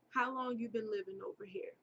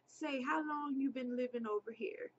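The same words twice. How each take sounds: First: Said in the usual way. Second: Put-on slightly higher, half-hearted broken English accent. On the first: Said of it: "I can't do the accent". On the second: Man questions a passing girl, in half-hearted broken English. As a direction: attempt a broken English accent lightly, pitched up. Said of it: "in the most broken English. I can't do the accent".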